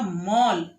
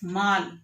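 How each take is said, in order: First: The vowel is an open o sound. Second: The vowel is a long aa sound. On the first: The speaker calls it right. "आ की मात्रा, और साथ में अर्धचंद्र" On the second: The speaker calls it wrong. "माँ पर आ की मात्रा लगाई तो"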